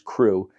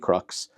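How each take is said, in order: First: The word ends on an open 'oo' vowel. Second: The word ends with a 'ks' sound. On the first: "I usually think of as crew" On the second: "it could be crux"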